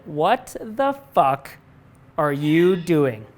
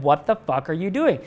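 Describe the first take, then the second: First: Drawn out slowly, each word weighted; mild mock confrontation, slow and heavy; slow emphatic challenge. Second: Said in the usual way. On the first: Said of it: "he pulled me aside and he said". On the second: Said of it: "And he said".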